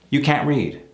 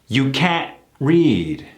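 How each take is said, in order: First: The t of can't is cut off gently. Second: The t of can't is cut off abruptly.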